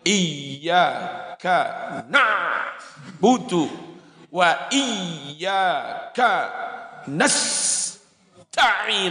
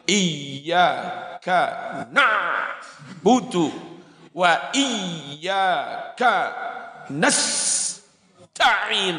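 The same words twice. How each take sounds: First: It is recited with heavy, showy melodic ornamentation. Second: It is recited with heavy, showy melodic ornamentation.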